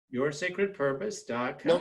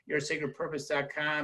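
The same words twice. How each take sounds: First: It is said slowly and deliberately. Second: It is said at normal speed.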